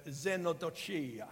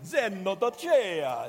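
First: Xenodochia said with an Italian accent, vowels rolled open. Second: Xenodochia drawn out slowly, much louder and higher on every syllable; savoured proclamation. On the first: Real, not acted. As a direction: pronounce xenodochia the Italian way, lightly. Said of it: "why I just pronounced that in an Italian accent". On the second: Shown as a demonstration. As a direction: relish Xenodochia like a grand announcement, slow and booming. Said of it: "It just sounds good".

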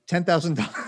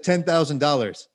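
First: Said in the usual way. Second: Deadpan, no hint of a joke; straight face. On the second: Quoting his price to Chad with a straight face. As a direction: state the absurd price as if it's serious. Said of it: "I said with a straight face".

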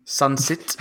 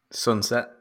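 First: Put-on South African accent, rising. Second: Said in the usual way. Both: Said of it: "good to say in a South African accent".

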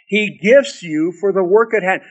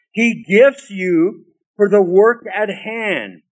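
First: Said in the usual way. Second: Slowly, leaning on gifts; slow emphatic. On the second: Shown as a demonstration. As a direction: spell it out slowly, stressing gifts.

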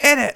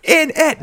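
First: "in it" blurred into one word, innit; run-together "in it". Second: "in it" high, as two distinct words; separated "in it". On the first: Contrasting British phrases for co-host, "in it" run together as innit. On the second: Showing co-host the British phrase, "in it" said as two words. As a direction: pronounce "in it" with a clear break between the words. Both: Shown as a demonstration. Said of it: "Not like in it".

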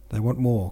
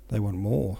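First: Louder, firmer repeat with a hint of croak; Napoleon, mild croak. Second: Lightly voiced hoarse remark, near narration level; Napoleon, lightly hoarse. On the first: Napoleon repeats to the adjutant who had not heard, mildly croaked. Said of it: "croaked Napoleon, frowning". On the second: Napoleon answers the adjutant's report, lightly hoarse. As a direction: say it with just a hint of hoarseness. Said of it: "said Napoleon in a hoarse voice".

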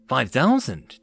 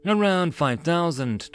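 First: Mildly surprised echo question. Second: Said in the usual way. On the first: A narrator's reading. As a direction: repeat it with a touch of disbelief. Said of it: "Tyria was surprised". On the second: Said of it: "Taurus replied as he sipped".

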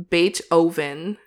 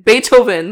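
First: Beethoven split as "bait oven"; mispronounced Beethoven. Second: Beethoven said as "BAY-toe-ven", louder; standard pronunciation of Beethoven. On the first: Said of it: "You just said Beethoven". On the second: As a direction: hit Beethoven firmly as one word, bay-toe-ven. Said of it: "That's how I would say it". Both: Shown as a demonstration.

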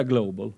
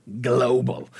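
First: Global said the English way, GLOH-bul with an English o; English pronunciation. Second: Global said the Swedish way with a pure long o; Swedish pronunciation. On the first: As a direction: say global as English, not Swedish. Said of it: "Man kan inte säga global". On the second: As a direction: say global as Swedish, GLO-bal. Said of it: "man måste säga". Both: Shown as a demonstration.

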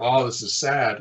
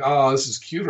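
First: Mildly acted pity, falling at the end; mock sad. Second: Higher-pitched cooing, lifted at the end; mock "aw, cute". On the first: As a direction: lightly act out finding it sad. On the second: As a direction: lightly act out finding it cute. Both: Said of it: "can you get some motivation for this".

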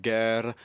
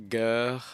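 First: "guerre" louder, with an Italian-tinged R; "guerre" drawn out with an Italian colour; a bit Italian. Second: "guerre" corrected to French, throaty R; "guerre" louder, as a French word; French pronunciation. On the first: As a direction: say French "guerre" slightly Italian. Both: Shown as a demonstration. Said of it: "that was a bit Italian".

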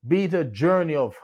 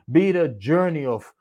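The two takes are said the same way.

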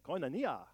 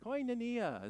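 First: Koinonia said with a light Greek accent; a hint of a Greek accent on Koinonia. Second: Koinonia said high and bright, koy-no-NEE-ah; saying Koinonia. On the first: Preacher inviting the church to say it in Greek accent. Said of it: "Let's say it with an accent". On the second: Preacher leading the congregation to say the word, high and clear. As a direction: sing out Koinonia well up in pitch. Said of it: "Let's all say it together". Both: Shown as a demonstration.

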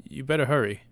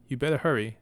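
First: A firm warning, higher and louder. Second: A firm warning, a bit higher and louder. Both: Acted. Sir Balin to his dawdling brother, firm warning. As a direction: press him to hurry up. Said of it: "Sir Balin warned".

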